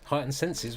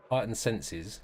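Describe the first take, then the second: First: Heightened senses asked higher, doubting; puzzled higher question on Heightened senses; incredulous echo. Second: Said in the usual way. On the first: Real, not acted. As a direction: repeat it back in disbelief.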